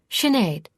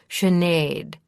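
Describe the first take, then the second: First: The stress falls more on the first syllable. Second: The stress falls more on the second syllable. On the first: The speaker calls it wrong. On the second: The speaker calls it right.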